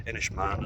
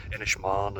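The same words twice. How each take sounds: First: Said in the usual way. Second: Inishmaan said the local woman's way, with a long final "maan"; native pronunciation. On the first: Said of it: "as we know it". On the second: Retold or imitated. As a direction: imitate the islander's way of saying Inishmaan, long last vowel. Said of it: "she pronounces it probably the right way".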